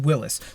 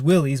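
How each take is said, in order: First: The name ends like the surname 'Willis'. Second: The name ends like the word 'willies'. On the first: This is the original surname of the founder. The speaker calls it right. "in reality it is Willis" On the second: This is the Americanized form of the name. The speaker calls it wrong. "it sounds better as Willys"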